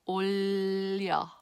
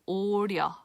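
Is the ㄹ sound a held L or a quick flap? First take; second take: held L; quick flap. First: The consonant is a held L sound. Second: The consonant is a quick flapped tap. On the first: The speaker calls it right. "the exception is 올려" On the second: The speaker calls it wrong. "if I were to pronounce it with the middle"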